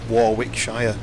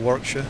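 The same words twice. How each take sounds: First: It is said in an American accent. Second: It is said in a British accent.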